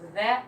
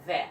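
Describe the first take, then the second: First: It begins with a th sound. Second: It begins with a v sound. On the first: "not the" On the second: "not th, the sound, but v sound"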